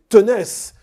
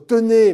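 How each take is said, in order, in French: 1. La consonne finale est prononcée. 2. La consonne finale est muette.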